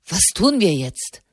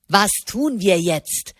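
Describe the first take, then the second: First: Said in the usual way. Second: Slow sneering parody of "Was tun wir jetzt?", "tun" leaned on; angry mocking mimicry. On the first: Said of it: "sagte Di Silvestro trocken". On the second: A narrator's reading. Didini angrily mocking Di Silvestro's question, a slow sneering parody. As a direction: mimic his words back with scorn, slowly. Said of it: "äffte Didini ihn wütend nach".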